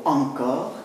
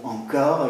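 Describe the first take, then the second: First: "encore" accented on its first syllable; initial stress on ENCORE. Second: "encore" with one of two contrasting accents; stress shifted within ENCORE. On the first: Lecturer shows accent changes no meaning, stressing first syllable of "encore". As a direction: hit the "en" of "encore". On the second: Lecturer contrasts accents for students, "encore" stressed at the end. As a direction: say "encore" accented on its final syllable. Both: Shown as a demonstration. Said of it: "cet accent ne".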